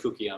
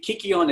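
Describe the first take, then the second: First: The first vowel is an Erasmian 'u' sound. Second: The first vowel is an anglicized 'y' sound. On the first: "what's known as an Erasmian pronunciation" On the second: "it goes into a Y"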